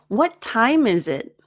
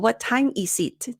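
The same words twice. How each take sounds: First: The s is voiced as z and linked. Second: The s stays unvoiced and is not linked. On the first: The speaker calls it right. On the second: The speaker calls it wrong.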